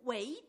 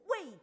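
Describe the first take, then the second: First: The word has a rising second tone. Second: The word has a falling tone. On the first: It means cultivating oneself. The speaker calls it right. "它原本的读法应该是人不为己，天诛地灭，二生的" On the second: It means acting for one's own benefit. The speaker calls it wrong. "结果我们今天都读成什么？"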